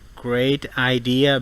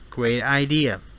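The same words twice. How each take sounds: First: The T is a crisp, hard T. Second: The T is a soft, quick tap.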